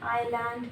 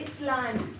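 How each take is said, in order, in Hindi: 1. कोई 's' ध्वनि सुनाई नहीं देती; यह 'eye' से शुरू होता है। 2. पहले स्वर के बाद 's' की ध्वनि सुनाई देती है। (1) "एस साइलेंट रहेगा" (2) "इसलैंड नहीं है"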